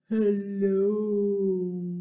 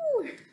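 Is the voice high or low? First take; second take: low; high. First: It is said in a very low voice. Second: It is said in a very high voice.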